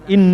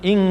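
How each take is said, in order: First: The nasal is made with the tongue tip forward. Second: The nasal is made at the back, like ng. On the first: The speaker calls it wrong. "Bukan in" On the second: The speaker calls it right. "tapi ing kuntum"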